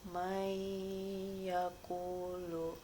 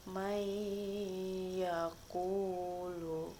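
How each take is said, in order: Both takes have the same delivery.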